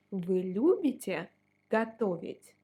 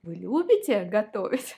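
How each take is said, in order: First: Said in the usual way. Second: Вы любите готовить gabbled fast and loud, all run together; rushed wrong way. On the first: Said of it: "No, you shouldn't". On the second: Shown as a demonstration. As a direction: rattle off Вы любите готовить too quickly, the way not to. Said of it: "And like that".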